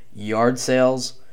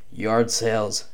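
Both takes have the same delivery.

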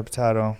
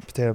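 First: "potato" with an AH in the middle; pronounced po-TAH-to. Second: "Potato" with an AY in the middle; pronounced po-TAY-to. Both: Shown as a demonstration. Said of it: "People say a lot of shit differently".

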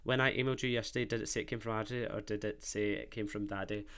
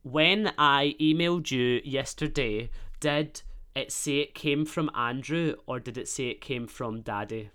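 First: Quick, low read-back of a message. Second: Slow, careful dictation to a phone; dictating. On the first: Host checking the sent text, quick read-back. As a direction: rattle it off under the level of chat. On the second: Host dictating a text to Siri, measured. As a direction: spell it out clearly for voice recognition. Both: Real, not acted.

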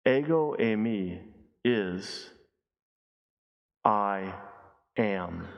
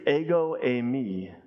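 First: Low and hushed, a pause before each word; solemn slow reveal. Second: Ego eimi said slowly as eh-go ay-mee; Greek phrase. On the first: Preacher revealing the meaning to the congregation, slow hushed reveal. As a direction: let I am land slowly. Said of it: "literally translated is simply this". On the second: Preacher teaching the congregation, careful Greek pronunciation. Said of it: "But the Greek". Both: Shown as a demonstration.

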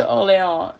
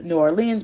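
First: "Orléans" said the French way, or-lay-AHN, with a laugh; "Orléans" in French, no "New", half laughing. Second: "New Orleans" said the American way, new OR-leenz; "New Orleans" in plain English, as the US city; New Orleans said by mistake. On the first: Correcting herself to the French city, says "Orléans" with a laugh. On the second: Retelling the plot, slips and names the US city "New Orleans". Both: Real, not acted. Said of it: "not New Orleans".

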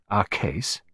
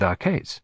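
First: Our hit hard as a doubtful question; stress on Our. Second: Said in the usual way. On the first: Shown as a demonstration. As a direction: lean on Our, questioning the claim.

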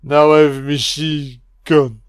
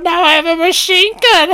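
First: Said in the usual way. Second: Much higher, louder, mock McClane; hammed-up high squeal. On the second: Drunk commentator mocking McClane's famous line, high squeal.

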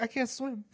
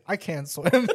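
First: Put-on higher, softer kid voice; imitated small child. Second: Smug retort. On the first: Kid answers dad's ocean threat, small mock-child voice. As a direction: object meekly like a little boy. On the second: Retold or imitated. Dad one-ups his kid about swimming, amused smug retort. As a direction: own pitch, amused and confident.

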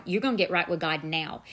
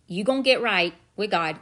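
First: Said in the usual way. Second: Louder, firm inner voice that allows no argument; firm command. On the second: Retold or imitated. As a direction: insist on it, no more waiting. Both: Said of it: "that still small voice said".

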